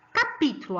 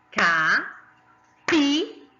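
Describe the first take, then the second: First: Said in the usual way. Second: "Capítulo" in four slow, separated syllables. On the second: Shown as a demonstration. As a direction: dictate "Capítulo" as ca, pí, tu, lo with clear pauses. ("Capítulo" bem devagar, sílaba por sílaba) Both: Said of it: "Quatro sílabas essa tem".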